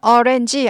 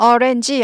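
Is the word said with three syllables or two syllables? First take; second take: three; three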